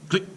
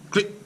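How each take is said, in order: Both takes have the same delivery.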